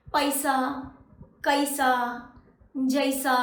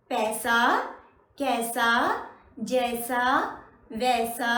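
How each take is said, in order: First: पैसा, कैसा, जैसा with ऐ split into a-i; wrong pronunciation. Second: पैसा, कैसा, जैसा, वैसा with one pure ऐ like English "pay"; right pronunciation. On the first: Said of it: "ऐसे नहीं होता ना". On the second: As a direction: model the single smooth ऐ in पैसा. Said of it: "ऐसे पढ़ते हैं ना". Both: Shown as a demonstration.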